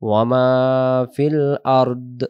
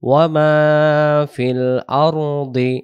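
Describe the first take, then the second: First: The last word ends clipped, without a vowel. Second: The last word ends with an i vowel. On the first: The reciter stops to take a breath here. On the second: The recitation continues without stopping.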